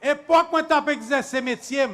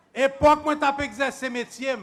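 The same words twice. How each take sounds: The two takes are said the same way.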